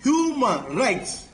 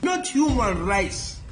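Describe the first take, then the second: First: Human rights said slowly, each word weighted; slow stressed. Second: Not punched, human rights said slowly; stress on NOT. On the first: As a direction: drag out Human rights with emphasis. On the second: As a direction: hit Not, then slow human rights. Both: Shown as a demonstration. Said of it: "The law is for the protection of human rights".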